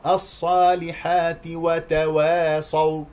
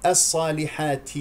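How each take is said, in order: First: "الصالحات وتواصوا" slowly chanted, ت without a puff; correct crisp ت. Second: "الصالحات" ending in a puffed ت; mistaken breathy ت. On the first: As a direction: join "الصالحات" to "وتواصوا" with a clean ti. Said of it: "حقق مخرج التاء جيدا". (ترتيل "الصالحات وتواصوا" بتحقيق التاء) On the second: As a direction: wrongly let air out on the ت of "الصالحات". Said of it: "لا تهمس التاء". (نطق "الصالحات" خطأً بهمس التاء) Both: Shown as a demonstration.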